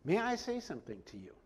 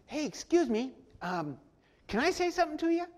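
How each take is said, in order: First: Soft, formal and polite request. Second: Breezy casual ask, pitched higher; casual, offhand. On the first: Paul politely asks the tribune for a word, formal. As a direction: ask with courtly respect. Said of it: "says it very formally, very politely". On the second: Paul casually interrupts the tribune, offhand and breezy. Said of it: "doesn't say it like that". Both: Shown as a demonstration.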